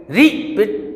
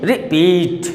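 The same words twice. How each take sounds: First: "repeat" with a long, strong रि and short पीट; wrong stress on RI. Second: "repeat" with a quick रि and long, strong पीट; stress on PEET. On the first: Teacher rejecting a wrong reading, "repeat" stressed on रि. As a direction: punch the first syllable of "repeat". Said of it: "ऐसा तो है नहीं है". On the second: Teacher showing correct stress, "repeat" stressed on पीट. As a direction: lean into the second syllable of "repeat". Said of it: "पीठ पर आ रहा". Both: Shown as a demonstration.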